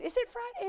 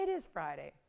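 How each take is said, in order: First: Much higher, questioning lift; puzzled question. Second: Low, softer falling confirmation; settled answer. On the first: Host wonders aloud what day it is, high puzzled question. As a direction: ask it high, as if unsure. Mock confusion, asks then answers herself. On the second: Host answers her own question about the day, low settled statement. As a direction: drop down and confirm it quietly. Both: Pretend.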